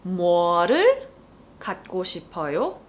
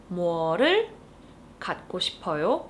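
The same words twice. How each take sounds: First: Fast Korean question. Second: Fast Korean question; fast repeat. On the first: Teacher modeling the casual question. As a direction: ask it quickly. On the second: Teacher repeating the casual question. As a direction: repeat it quickly. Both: Shown as a demonstration. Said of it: "you would need to use the object marker 를".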